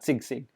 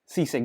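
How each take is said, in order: First: The first syllable ends with a g sound. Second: The first syllable is a plain 'si' sound. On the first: The speaker calls it wrong. "not sigsig" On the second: The speaker calls it right. "It's sisig"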